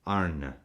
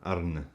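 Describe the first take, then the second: First: "Arne" as AR-nuh, final vowel trailing away; vowel falls off. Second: "Arne" with a dropped final vowel; proper Dutch name. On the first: Host coaching viewers on the name, soft falling vowel. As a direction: let the end of "Arne" fall off. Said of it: "you gotta let that vowel fall off". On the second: Host practising the manager's name, soft Dutch try. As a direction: say "Arne" as AR-nuh, letting the vowel fall off. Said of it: "I can't do the fancy or". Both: Shown as a demonstration.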